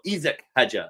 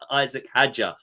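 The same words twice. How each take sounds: First: The name is said with a French pronunciation. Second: The name is said with an English pronunciation. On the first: The speaker calls it right. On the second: The speaker calls it wrong.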